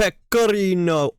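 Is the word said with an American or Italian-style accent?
Italian-style. It is said with an Italian-style pronunciation. The speaker is trying to sound fancy. The speaker calls it wrong. "You don't need to make it sound Italianish"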